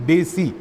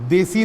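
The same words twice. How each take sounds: First: डेसी with a hard retroflex d; the right डेसी, retroflex d; correct pronunciation. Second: The mistaken देसी, dental d; wrong pronunciation. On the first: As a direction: curl the tongue back for डेसी. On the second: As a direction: say देसी with the tongue behind the teeth. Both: Shown as a demonstration. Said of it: "देसी नहीं".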